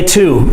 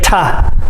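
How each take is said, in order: First: The vowel is a full, clear 'oo'. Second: The vowel is reduced to a short 'uh'. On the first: This is how it sounds when speaking very clearly. "We do not say to" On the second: This is how it sounds in everyday conversation. "almost every time we say ta"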